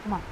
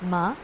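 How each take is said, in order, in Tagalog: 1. Binigkas ito sa magaan na neutral na tono. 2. Binigkas ito sa ikalawang tono. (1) "fifth tone is ma" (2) "Second tone"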